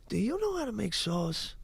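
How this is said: It is said sweetly, stressing you and sauce.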